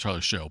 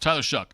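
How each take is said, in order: First: The surname ends in an open vowel sound. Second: The surname ends in a k sound. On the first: This is how the spelling suggests it is said. "It's supposed to Tyler Show" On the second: This is how the player himself says it. "who's got a weird pronunciation of his name"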